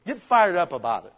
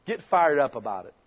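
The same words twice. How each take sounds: First: Pushed, rousing exhortation; fired-up call. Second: Said in the usual way. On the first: Shown as a demonstration. Pastor urges the congregation to get fired up, rousing. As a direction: push the words fired up harder. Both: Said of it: "repeated louder".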